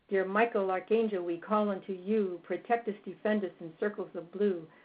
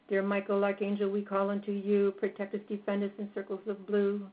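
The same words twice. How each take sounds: First: The prayer is said with varied, lively pitch. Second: The prayer is said on one flat pitch. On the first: "we usually give it like this" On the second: "we'll give it in a monotone"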